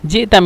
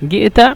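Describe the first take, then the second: First: The word begins with a j sound. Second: The word begins with a hard g sound. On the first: This is the standard Arabic form. "শুদ্ধ ভাষা জিতা মিন" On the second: This is the Egyptian dialect form. "মিশরের ভাষা হলো গিয়েতা মিনেন"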